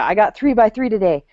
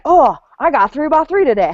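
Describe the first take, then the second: First: It is said in a weary, reluctant tone. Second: It is said in an excited, curious tone.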